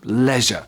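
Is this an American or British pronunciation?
British. It is said with a British pronunciation. "in British English, it is pronounced leisure"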